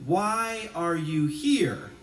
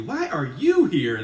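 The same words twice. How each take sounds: First: Said in the usual way. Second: Blunt and pointed, "you" punched; rude. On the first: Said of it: "We can simply say". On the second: Pretend. Preacher showing congregation how rude it would sound, blunt. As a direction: ask it like an unwelcoming challenge. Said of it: "that would be rude".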